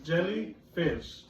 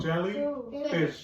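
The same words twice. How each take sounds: First: Jel-ly-fish spelt out slowly by syllable; slow syllable count. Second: Jel-ly-fish stretched into slow parts; slow syllable count. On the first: Teacher splits jellyfish slowly for the class. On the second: Teacher repeats jellyfish slowly to confirm syllables. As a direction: drag out each syllable of jellyfish. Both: Shown as a demonstration. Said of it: "How many syllables does jellyfish have?".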